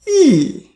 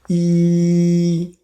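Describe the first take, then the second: First: The pitch falls sharply from high to low. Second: The pitch stays high and level. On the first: "Fourth tone ... from top to bottom" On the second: "First tone, E flat"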